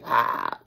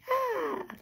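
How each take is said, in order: First: It sounds aggressive and forceful. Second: It sounds gentle and mild.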